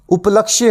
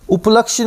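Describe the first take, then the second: First: उपलक्ष्य ending in "-kshye"; correct उपलक्ष्य. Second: उपलक्ष्य cut off at "-ksh"; mispronounced उपलक्ष्य. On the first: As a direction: say उपलक्ष्य as up-lak-shye, sounding the last syllable. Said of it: "उपलक्ष्य होगा". (उपलक्ष्य के अंत में 'क्ष्य' साफ़ बोलें) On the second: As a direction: say उपलक्ष्य as up-laksh, without the final y. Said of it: "उपलक्ष्य नहीं होता". (उपलक्ष्य को 'उपलक्ष' बोलें) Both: Shown as a demonstration.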